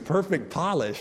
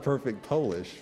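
First: Polish has the short o sound of 'doll'. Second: Polish has the long o sound of 'pole'. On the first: It means nail polish. The speaker calls it right. "It's Perfect Polish" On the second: It means from Poland. The speaker calls it wrong. "not Perfect Polish"

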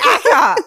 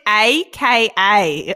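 First: It is said as a single two-syllable word. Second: It is spelled out as three separate letters. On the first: The speaker calls it wrong. "you've been saying Acker this for 60 years" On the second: The speaker calls it right. "pronounce it AKA"

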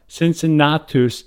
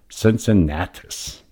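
First: The name is said in a Latin-style pronunciation. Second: The name is said in an American pronunciation. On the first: This is how the man himself would know his name. The speaker calls it right. "Cincinnatus is how he would recognize his name" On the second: This is how everyone in America knows the name. The speaker calls it wrong. "for the sake of this podcast, we'll go with Cincinnatus"

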